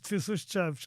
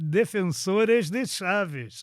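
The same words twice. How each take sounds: First: European Portuguese accent, with the vowels reduced. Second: Brazilian accent, with the vowels full and open. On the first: "a gente diz Defensores de Chaves" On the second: "como é que um brasileiro diz isto"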